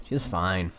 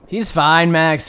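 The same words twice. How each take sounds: First: Said in the usual way. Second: Louder, lifted mock protest; mock exasperation. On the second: Brushing off Max's worry about the girl, mock exasperated. Mock defence of the rock injury.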